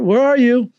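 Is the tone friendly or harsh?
friendly. It is said in a warm, friendly tone. The caller is simply looking for friends. The speaker calls it right. "It's like a totally different tone"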